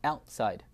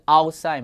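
First: Outside opening on "eh-ow"; Outside with a fronted first vowel; correct pronunciation. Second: Outside opening on plain Mandarin "ao"; outside without the "eh" glide; wrong pronunciation. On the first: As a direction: say Outside as eh-owt-side. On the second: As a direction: say outside as ao-sai. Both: Shown as a demonstration. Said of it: "不是outside吗".

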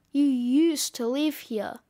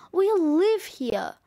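First: Lightly voiced gruff snowman; a mildly smug, gruff put-down; gruff correction. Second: Slow, mildly indignant protest; indignant insistence. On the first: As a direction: correct them coolly, a touch gruff. Snowman coolly corrects the child. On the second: Acted. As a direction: stand your ground, a touch raised. Child insists against the snowman.

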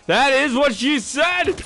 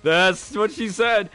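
First: High, loud, slow punchline; hammed-up joke. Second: Said in the usual way. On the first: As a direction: belt the punchline slowly. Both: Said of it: "Said the reader bot".

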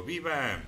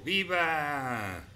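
First: Said in the usual way. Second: Bright exclaimed cheer, higher; cheering viva. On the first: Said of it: "Y yo digo". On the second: Real, not acted. Streamer answering the viewer's cheer, exclaimed. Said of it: "Yo digo viva".

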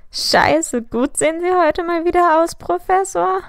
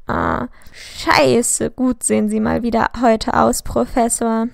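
First: Mimicking the slip much higher, rising to a squeak; mocking imitation. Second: Hesitant, embarrassed cover-up of the slip; flustered, fishing for a way out; sheepish. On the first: Sirius mimics James's line to the professor, mocking. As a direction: parrot his words back to tease him. Friend mocks James's blunder. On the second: Caught pupil flatters his teacher, sheepish and awkward. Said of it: "lachte zögerlich". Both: A narrator's reading.

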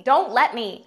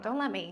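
First: Shouting; loud shout. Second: Said in the usual way. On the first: Shown as a demonstration. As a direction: yell it out loud.

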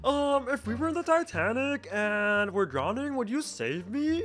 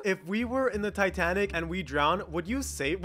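First: Slow, soft imitation of a girl; put-on slow voice, hesitant opening, questioning end; Dixie voice. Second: Said in the usual way. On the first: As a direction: read it slowly and softly as her impression. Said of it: "why is she talking in the Dixie voice". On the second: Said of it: "what did that girl type in".

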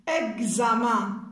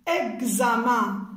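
Both takes have the same delivery.

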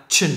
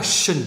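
First: "chin" with an abrupt "ch" onset. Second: "shin" with a long hushing "sh" onset. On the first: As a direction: pop the "ch" at the start of "chin". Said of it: "một cái là chin". ("chin" bật hơi âm "ch") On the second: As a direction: let "shin" begin on a smooth hiss. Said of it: "Một cái là shin". ("shin" xì hơi âm "sh") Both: Shown as a demonstration.

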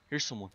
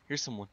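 The two takes are said the same way.

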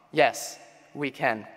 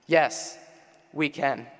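No difference in how they are said.

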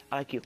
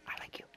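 First: Said in the usual way. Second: Soft whisper, no voice; hushed little confession; whispered aside. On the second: Real, not acted. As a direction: whisper it like a secret fondness. Repeats it to the item, whispered.

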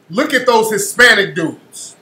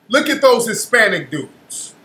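No difference in how they are said.

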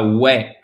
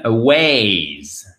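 First: "way" as a short French "oué"; mispronounced flat vowel in "way"; missing diphthong. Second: "Ways" with a long gliding vowel; drawn-out "Ways"; full diphthong. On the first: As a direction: cut "way" off with no glide. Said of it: "pas way". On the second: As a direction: glide from eh to ee in "Ways". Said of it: "Faites bien attention aux diphtongues". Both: Shown as a demonstration.

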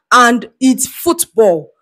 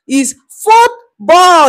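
First: And it's football drawn out slowly, every word spelled out; slow, firm statement; slow and deliberate. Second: Football said slow, higher and louder, hammered home; emphatic slow insistence on football; stress on football. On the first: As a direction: lay football down slowly like a fact. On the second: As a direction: punch football as the final word. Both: Shown as a demonstration.

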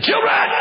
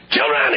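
First: High, loud drawn-out preacher's call; pastor's call. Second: Loud called-out word; pastor's call. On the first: Pastor addressing young people, high ringing call. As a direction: call the children like an old pastor. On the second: Pastor addressing young people, loud calling voice. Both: Retold or imitated. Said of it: "that's the way he talks".

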